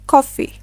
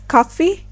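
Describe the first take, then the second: First: It is said with a rounder British O. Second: It is said with an open American O. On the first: "in British English, it will be pronounced as" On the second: "It is pronounced as"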